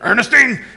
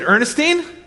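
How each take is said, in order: First: It is said in a gruff, rough voice. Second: It is said in a plain, ordinary voice.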